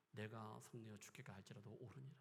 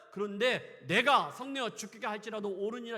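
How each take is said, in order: First: Softer, muttered 옳으니라 with a rise; sullen quiet reply. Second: Louder defiant 옳으니라 said at full force; loud stubborn reply. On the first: Jonah sulking at God, quiet. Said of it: "막장으로 가고 있는 그 모습". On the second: Jonah answering God, loud and defiant. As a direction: hurl it back defiantly. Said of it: "하나님 말씀하시잖아요". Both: Acted.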